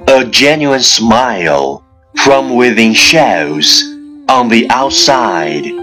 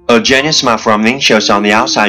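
First: It is spoken at a moderate pace. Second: It is spoken at top speed. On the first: "跟上我的节奏。" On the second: "一口气最快语速"

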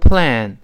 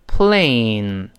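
First: The vowel is a single plain vowel. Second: The vowel is a diphthong before the nasal. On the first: The speaker calls it wrong. "不能读成plan" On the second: The speaker calls it right. "是读成plain"

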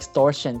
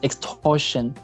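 First: The t is softened, in an American accent. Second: The t is crisp, in a British accent.

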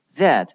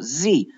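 First: The letter is said in a British accent. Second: The letter is said in an American accent. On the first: "而在英式英语当中它读作z z" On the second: "在美式英语当中它读作z"

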